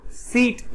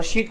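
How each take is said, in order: First: सीट begun with a plain s; s sound. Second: शीट begun with a hushing sh; sh sound. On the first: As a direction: say सीट as "seet", not "sheet". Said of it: "बैठने वाला सीट". (सीट को 'स' से बोलें) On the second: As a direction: say शीट as "sheet", not "seet". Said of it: "चादर वाला शीट". (शीट को 'श' से बोलें) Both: Shown as a demonstration.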